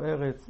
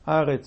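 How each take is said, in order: First: The first vowel is an 'eh' sound. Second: The first vowel is an 'ah' sound. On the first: The word stands in its ordinary, non-pausal form. The speaker calls it wrong. "ולא ארץ" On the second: The word stands at a major pause in the verse. The speaker calls it right. "ארץ ולא"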